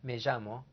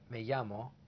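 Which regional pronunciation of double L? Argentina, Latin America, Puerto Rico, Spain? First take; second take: Argentina; Latin America. First: The double L has a buzzing J-like sound. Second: The double L sounds like a Y. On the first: "A J sound, as in Argentina, Uruguay" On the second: "A Y sound, many parts of Latin America"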